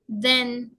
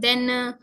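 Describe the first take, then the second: First: The word is said with native-like English sounds. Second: The word is said with non-native English sounds. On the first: The speaker calls it right. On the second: The speaker calls it wrong. "not then"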